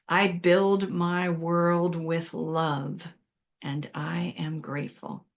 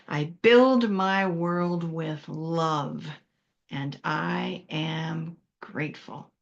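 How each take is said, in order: First: It is said calmly with ordinary energy. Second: It is said with a lot of energy.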